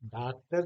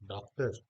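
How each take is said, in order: First: The first vowel is a full open aa. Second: The first vowel falls between aa and o. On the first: The speaker calls it wrong. "डॉक्टर नहीं कह रहा हूं" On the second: The speaker calls it right. "ना तो हम आ की मात्रा पूरी बोल रहे हैं और ना ही हम ओ की मात्रा"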